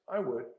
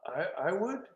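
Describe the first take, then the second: First: It is said with calm self-assurance. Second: It is said hesitantly, with a stumble.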